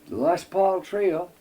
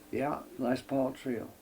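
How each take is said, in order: First: "Les Paul Trio." said slowly and higher, each word spelled out; slow emphatic name. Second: Said in the usual way. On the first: Retold or imitated. Contractor checking the sheet, slow emphatic "[name] Trio.".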